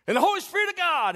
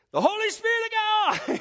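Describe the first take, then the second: First: High, loud preaching yell; preacher's yell. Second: Much higher, louder desperate yell; frantic preacher yell. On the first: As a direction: belt it out like a preacher announcing the dove. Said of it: "and he yells it out". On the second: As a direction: shout it again, louder, willing the dove to drop. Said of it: "he yells it out". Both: Retold or imitated.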